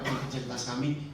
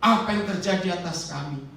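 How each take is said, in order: First: It is read flatly, without emotion. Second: It is read as a mournful, crying lament. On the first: The words carry no meaning. The speaker calls it wrong. "Nggak ada artinya" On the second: The speaker is grieving and crying out. The speaker calls it right. "Ini meratap, ini menjerit"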